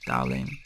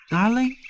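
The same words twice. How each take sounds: First: Much lower, softer "darling"; low endearment. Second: High, rising "Darling?"; puzzled echo. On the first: Alien greets puppy as darling, low and soft. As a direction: drop "darling" low and quiet. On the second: Puppy queries being called darling, incredulous. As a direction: question it in disbelief, pitch shooting up. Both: Acted.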